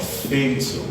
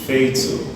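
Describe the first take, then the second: First: The first vowel is an 'ay' sound. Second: The same.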